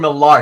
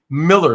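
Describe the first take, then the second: First: The last syllable sounds like 'lar'. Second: The last syllable sounds like 'ler'. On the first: The speaker calls it wrong. "that's not how you pronounce it" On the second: The speaker calls it right. "actually Miller, believe it or not"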